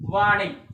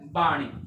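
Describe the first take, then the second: First: The word begins with a v sound. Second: The word begins with a b sound. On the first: The speaker calls it wrong. "ਸਾਡੇ ਕੋਲ ਸ਼ਬਦ ਹੈ ਵਾਣੀ" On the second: The speaker calls it right. "ਸ਼ੁੱਧ ਰੂਪ ਹੈ ਬਾਣੀ"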